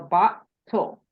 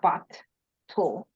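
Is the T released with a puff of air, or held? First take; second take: unreleased; aspirated. First: The T is held without releasing any air. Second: The T is released with a puff of air. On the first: The speaker calls it right. "without that aspiration that comes after the T sound" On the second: The speaker calls it wrong. "not bot tool"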